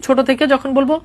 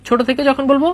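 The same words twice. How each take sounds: The two takes are said the same way.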